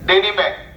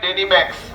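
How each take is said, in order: First: The name ends on a k sound. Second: The name ends with an added s sound. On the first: The speaker calls it right. "সঠিক নাম উচ্চারণ" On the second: The speaker calls it wrong. "আমরা কিন্তু বলি ডেনিম্যাক্স"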